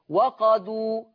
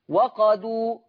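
No difference in how they are said.

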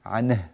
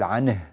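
No difference in how they are said.

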